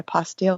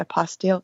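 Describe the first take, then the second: First: The word sounds like 'apostille'. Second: The word sounds like 'apostille'.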